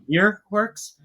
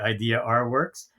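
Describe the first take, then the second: First: The R is joined onto the end of idea. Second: The R is said as a separate letter. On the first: The speaker calls it right. "as a New Yorker, everybody says idea" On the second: The speaker calls it wrong. "A lot of people say"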